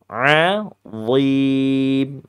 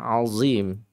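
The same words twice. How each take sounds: First: The z is a heavy, emphatic z sound. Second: The z is a light, plain z sound. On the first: The speaker calls it right. "Lidahnya naik di bagian tengah ... Nah, begitu" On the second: The speaker calls it wrong. "Padahal ini bacaan yang salah ya, azim. Itu zai"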